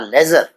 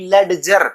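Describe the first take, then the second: First: It is said without any d sound. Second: A d sound is said before the j. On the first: The speaker calls it right. "डी silent रहेगा" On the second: The speaker calls it wrong. "कुछ बच्चे गलती कर जाते हैं, डी को बोलते हैं"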